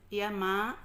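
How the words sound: It is said in a gentle, pleasant tone.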